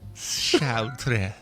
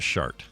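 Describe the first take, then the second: First: The name has extra sounds after the 't'. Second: The name ends abruptly on a bare 't' sound. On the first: The speaker calls it right. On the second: The speaker calls it wrong.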